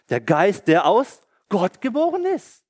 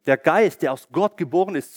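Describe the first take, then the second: First: Rising excitement. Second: Said in the usual way. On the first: Acted. Preacher builds to Halleluja.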